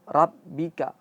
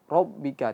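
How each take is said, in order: First: The r is light and thin. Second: The r is heavy with a rounded o sound. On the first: "banyak ro itu malah ditipiskan" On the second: "jangan o, ro, rob"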